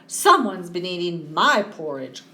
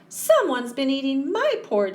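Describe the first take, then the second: First: It is said in a crying voice. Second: It is said in a high squeak.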